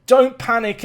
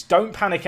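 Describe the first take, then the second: First: Higher, louder don't panic; louder anxious plea. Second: Said in the usual way. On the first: Real, not acted. Manager shouting to the players, anxious and loud. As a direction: beg them not to panic while panicking.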